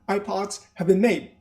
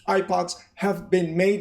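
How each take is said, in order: First: The main stress falls on 'made'. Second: The main stress is not on 'made'. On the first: The speaker calls it right. "Remember the accent in the past participle?" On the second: The speaker calls it wrong. "No, no, no, please"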